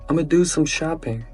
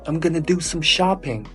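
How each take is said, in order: First: 'I'm going to' is squeezed into 'ama'. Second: 'Going to' is reduced to 'gonna'. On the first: The speaker is from certain regions. "Or in some places, they just say, ... Ama" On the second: The speaker is a native speaker. "They say"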